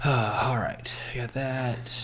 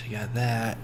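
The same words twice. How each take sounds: First: Whispered, to himself; whispered pep talk. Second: Said in the usual way. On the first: Real, not acted. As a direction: whisper it to yourself for courage. Psyching himself up quietly.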